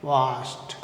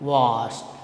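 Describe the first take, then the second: The two takes are said the same way.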